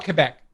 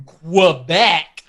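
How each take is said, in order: First: "Quebec" with a plain K start; local pronunciation. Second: "Quebec" with a "kwuh" start; outsider pronunciation. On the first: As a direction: say "Quebec" as "kuh-BECK", no W. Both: Shown as a demonstration. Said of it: "We call it Quebec".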